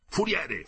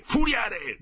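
First: Shouting. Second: Much higher, louder yell for the quartermaster; furious second call, louder than the first; shouting. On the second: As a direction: bellow the name at full voice, higher. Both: A narrator's reading. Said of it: "gridò Bixio".

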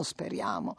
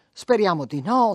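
First: Speriamo dropped low and soft, almost to herself; resigned echo under the breath; fading murmur. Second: No lifted in hope; hope lifted on the last word; hopeful rise on no. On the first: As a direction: let speriamo sink away quietly. Hope fades to a murmur. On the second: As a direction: speriamo di no, rising hopefully on no. Mother hoping, then trailing off. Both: Acted.

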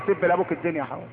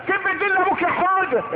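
First: Said in the usual way. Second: Put-on high-pitched goading of a small child; egging-on parent. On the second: Parent tells Houda to curse his father, egging on.

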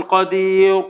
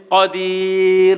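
First: "قدير" with a dark, backed ending; wrong heavy r. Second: "قدير" drawn out slowly, thin clear r; light final r. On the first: Teacher showing what not to say, "قدير" with heavy r. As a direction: darken the r at the end of "قدير". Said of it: "ما ينفعش أقول". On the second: Teacher giving an example word, slow "قدير" with light r. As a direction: hold the long i, end "قدير" on a light r. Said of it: "مرققة إمتى". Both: Shown as a demonstration.

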